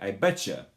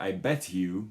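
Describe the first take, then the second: First: The t and y blend into a ch sound. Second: The t and y sounds are kept separate. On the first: The speaker calls it right. "We say I betcha" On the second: The speaker calls it wrong. "we don't say"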